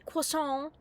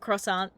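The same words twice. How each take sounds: First: It is said with a French pronunciation. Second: It is said with an English pronunciation. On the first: The speaker is showing off after visiting Paris. "all of a sudden you say croissant instead of" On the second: This is the usual everyday way of saying it. "instead of croissant"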